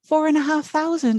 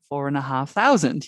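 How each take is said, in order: First: The price is said in a raised, high voice. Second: The price is said in a relaxed, normal voice. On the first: The price is made to sound smaller and nicer. The speaker calls it wrong. "don't raise your voice when you say a high price" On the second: The price is stated plainly as it is. The speaker calls it right. "talk in your normal voice"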